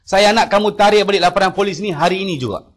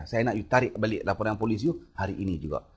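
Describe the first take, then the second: First: Loud, higher barked command; imitating the boss shouting an order; angry order. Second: Said in the usual way. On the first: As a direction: order him to withdraw it today. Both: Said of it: "Dia bagi arah kat saya".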